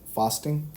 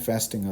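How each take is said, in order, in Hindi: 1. यह British accent में बोला गया है। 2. यह अमेरिकन एक्सेंट में बोला गया है। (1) "ब्रिटिश एक्सेंट में" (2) "अमेरिकन एक्सेंट में"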